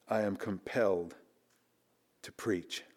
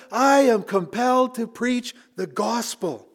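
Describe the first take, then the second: First: Soft, lower, almost fading reprise; hushed reflection. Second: Slow, high, weighty proclamation of Paul's words; emphatic declaration. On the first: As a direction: let it sink in, nearly under breath. Quiet reprise of Paul quote. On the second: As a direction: land each word like a verdict. Climax of Paul quote. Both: Acted.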